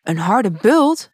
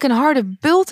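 First: Slow, questioning echo with rising end; surprised. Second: Said in the usual way. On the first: A narrator's reading. Prince echoes the girl's complaint, surprised. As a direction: repeat it in slow disbelief. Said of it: "zei de prins verbaasd".

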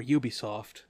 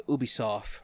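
First: "Ubisoft" beginning with YOO; "Ubisoft" with a Y glide in front; YOO-bee pronunciation. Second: "Ubisoft" beginning with OO; "Ubisoft" without a Y at the start; OO-bee pronunciation. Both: Shown as a demonstration. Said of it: "or Ubisoft".

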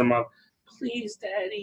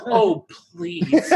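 First: Much softer, higher little plea; pleading toddler. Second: Much higher mock begging through a laugh; hammed-up plea. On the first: Retold or imitated. Toddler begs Daddy to open her birthday toys, soft and higher. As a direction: beg sweetly and softly, barely voiced. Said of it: "and she said". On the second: Father mimics his daughter's plea, higher and laughing. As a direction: overdo the little girl's please while laughing. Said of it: "She didn't say the please".

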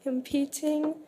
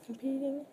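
First: Said in the usual way. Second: Soft, muttered repeat of "competing"; quiet self-correction. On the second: Real, not acted.

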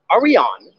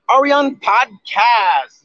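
First: Said in the usual way. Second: "Are we on podcast?" stretched slowly, each word held; drawn-out call. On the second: Shown as a demonstration. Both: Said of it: "I have one thing to ask you guys".

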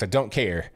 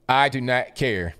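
First: Said in the usual way. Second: "I do not care" slowed, every word hit; emphatic stress. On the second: Real, not acted. Dismissing the crying coaches, slow and emphatic "do not". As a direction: spell out "do not" slowly and firmly.

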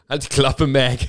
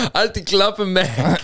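First: Said in the usual way. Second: Higher, mildly hammed-up cartoon dad; a light imitation of Peter snapping at Meg; mock Peter Griffin. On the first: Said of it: "sagt so Peter die ganze Zeit". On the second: Friend retells the Family Guy line, voicing Peter a bit higher. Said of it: "und er sagt so".

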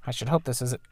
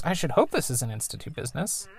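First: Said in the usual way. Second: Mom's voice. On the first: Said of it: "er, wait, I said". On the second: Acted. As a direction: reread as the mom, a bit higher. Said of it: "er, wait".

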